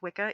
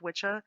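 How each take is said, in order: First: The middle consonant is a hard k sound. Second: The middle consonant is a ch sound. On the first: The speaker calls it right. "It's pronounced Wicca" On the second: The speaker calls it wrong. "It's not pronounced Witcha"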